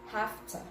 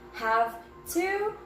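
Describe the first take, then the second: First: The words blend into one reduced form. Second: Both words are said fully and separately. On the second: "We're combining have plus to"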